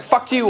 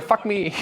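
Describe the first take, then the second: First: Mock aggressive movie German, pitched higher; hammed-up movie-villain aggression. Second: Mock camp German, pitched up; hammed-up flirty movie German. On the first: German in a movie, mock aggressive. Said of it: "We either sound super aggressive". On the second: German in a movie, mock camp come-on.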